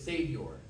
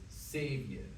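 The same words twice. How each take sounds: First: The final R sound is pronounced. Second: The final R sound is dropped. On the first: This is how it is said in ordinary speech. "the way we say it is Savior" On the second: This is how it is shaped for singing. "get rid of that diphthong of Savior and get rid of the R is Savior"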